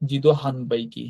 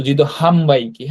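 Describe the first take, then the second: First: Slow "হান" with a clear n; HAN as written. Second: "হাম" with the n turned to m. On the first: Teacher reading out vending machine word as written, "হান" with n. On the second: Teacher showing learners the real sound, "হাম" ending in m. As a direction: run "হাম" into বাইকি with closed lips. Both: Shown as a demonstration. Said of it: "নয়ের উচ্চারণটা ময়ের মতো হয়".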